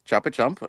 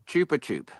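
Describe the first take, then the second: First: The last word ends with an m sound. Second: The last word ends without an m sound. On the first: This is how people here usually say the name. The speaker calls it wrong. "how we say it" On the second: This is the original pronunciation of the name. The speaker calls it right. "that's the correct pronunciation"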